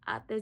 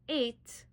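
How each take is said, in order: First: It does not sound like English eight. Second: It sounds like the English number eight. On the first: The speaker calls it right. "that's how you pronounce it" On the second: The speaker calls it wrong. "That doesn't say eight"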